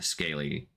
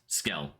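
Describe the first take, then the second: First: The name is said with two syllables. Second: The name is said with one syllable. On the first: The speaker calls it wrong. "I think is that how it's pronounced" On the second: The speaker calls it right. "Dang it, Skell, not Scaly"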